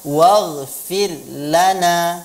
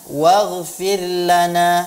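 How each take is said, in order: No difference in how they are said.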